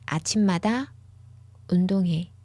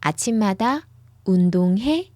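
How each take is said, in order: First: The voice falls at the end. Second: The voice rises at the end. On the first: The speaker says they exercise every morning. "The intonation goes down at the end" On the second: It asks whether the listener exercises every morning. "with the intonation that goes up at the end"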